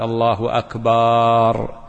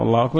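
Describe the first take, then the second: First: The vowel in akbar is drawn out long. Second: The vowel in akbar is short.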